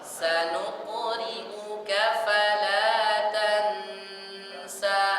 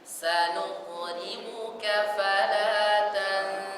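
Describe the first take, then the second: First: A distinct n sound is heard before the s. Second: The n is hidden into a nasal before the s. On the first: The speaker calls it wrong. "Jangan kedengaran suaranya atau suara nunnya. Tidak dibaca" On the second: The speaker calls it right. "Tapi ... Nah, begitu"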